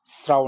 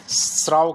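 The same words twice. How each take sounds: First: स्त्राव with a 't' between 's' and 'r'; wrong 'str' cluster. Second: स्राव with no 't' between 's' and 'r'; correct 'sr' cluster. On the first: Teacher warning students off the error, स्त्राव with 'str'. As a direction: say स्त्राव as straav. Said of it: "त्र नहीं बोलना". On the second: Teacher stressing the difference, स्राव with bare 'sr'. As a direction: say स्राव as sraav. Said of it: "ये मैं स्राव कह रहा हूँ". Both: Shown as a demonstration.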